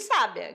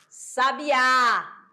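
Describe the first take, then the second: First: The stress is on the first syllable. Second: The stress is on the last syllable. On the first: "diferente de sábia" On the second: "a sílaba mais forte foi o quê? O A"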